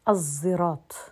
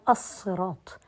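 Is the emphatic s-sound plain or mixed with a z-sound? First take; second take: mixed; plain. First: The s-sound is blended with a z-sound. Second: The s-sound is a plain emphatic s. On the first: "لكن أنا أشممت الزاي" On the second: "هي أصلها"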